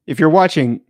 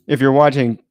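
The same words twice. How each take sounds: The two takes are said the same way.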